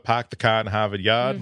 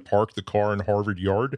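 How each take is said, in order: First: It has a Boston accent, dropping the R sounds. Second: It has a Western Pennsylvania accent, with hard R's.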